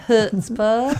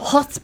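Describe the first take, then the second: First: It is said in a Southern accent. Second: It is said in her usual accent.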